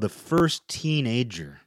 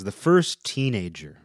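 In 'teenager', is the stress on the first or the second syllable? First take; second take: second; first. First: The stress in 'teenager' is on the second syllable. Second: The stress in 'teenager' is on the first syllable. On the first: The speaker calls it wrong. "I said that a little weird. I said that like people who say TV, where they emphasize the second part of the word, the second syllable" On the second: The speaker calls it right. "No, this is The First Teenager"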